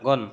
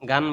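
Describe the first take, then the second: First: The vowel is a rounded, o-like sound. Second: The vowel is an open, a-like sound. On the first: The speaker calls it right. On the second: The speaker calls it wrong.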